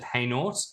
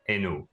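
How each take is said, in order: First: The name is said with an English pronunciation. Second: The name is said with a French pronunciation. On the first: "the English pronounce it Hainaut" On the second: "the French pronounce it Hainaut"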